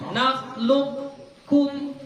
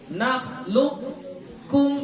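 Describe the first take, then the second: No difference in how they are said.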